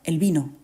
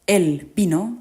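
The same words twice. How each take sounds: First: Both words run together as one unstressed unit. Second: Both words are separated, each with its own stress. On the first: It is the article followed by the noun: the wine. "juntamos el artículo el a la palabra vino, pronunciándolo como si fuera una palabra trisílaba y llana" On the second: It is the pronoun followed by the verb: he came. "las separamos"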